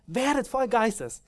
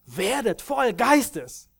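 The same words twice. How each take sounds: First: High, slow emphatic repeat of the command; proclaiming command. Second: Slow, high, loud proclamation of the apostle's command; proclaiming command. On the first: Preacher repeating Paul's command, high and slow. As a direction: press the command home once more. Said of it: "und er sagt". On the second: Preacher quoting Paul's command to Ephesus, slow high proclamation. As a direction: ring it out like a command from the pulpit. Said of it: "diesen Befehl gibt". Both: Retold or imitated.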